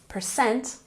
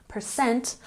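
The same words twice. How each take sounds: No difference in how they are said.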